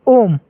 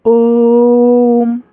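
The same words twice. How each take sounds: First: ओम said short and quick; ओम said briskly, the vowel not held; short clipped Om. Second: ओम with the vowel stretched long; long held Om. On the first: Teacher showing students the wrong short ओम. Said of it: "ओम नहीं पढ़ेंगे". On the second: Teacher showing students the right long ओम. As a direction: draw out ओम, lingering on the sound. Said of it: "मतलब थोड़ा late तक उच्चारण करना है". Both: Shown as a demonstration.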